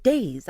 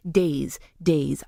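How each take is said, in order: First: DAYS pitched up, then falling; unnatural tune. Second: DAYS as two separate falling attempts; dropping tune. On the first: Host mocking the line reading she was given, swooping DAYS. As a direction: say DAYS with an exaggerated rise and drop. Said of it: "I would be like". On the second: Host trying a producer's note on her script, falling DAYS. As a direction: say DAYS low, letting the pitch drop. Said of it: "saying that up and down". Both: Shown as a demonstration.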